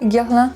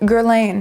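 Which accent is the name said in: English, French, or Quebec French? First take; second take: French; English. First: It is said with a France French accent. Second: It is said with a plain English accent. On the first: "French people would say Guerlain" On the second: "So I just say Guerlain, because then I'm not even trying"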